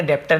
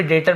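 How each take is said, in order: First: "डेप्टर" with a sounded P before T; wrong pronunciation, P sounded. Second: "डेटर" with no B or P sound; correct silent-B pronunciation. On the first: Teacher warns learners off a misreading, P sounded in "डेप्टर". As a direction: say "डेप्टर", voicing the silent letter as P. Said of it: "डेप्टर नहीं पढ़ेंगे". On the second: Teacher shows learners how debtor is read, silent B in "डेटर". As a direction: say "डेटर", vowel straight into T. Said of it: "इसे भी डेटर पढ़ेंगे". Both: Shown as a demonstration.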